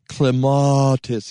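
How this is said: The word is said in a refined, posh accent. The speaker is trying to sound upper class. "if you're a social climber"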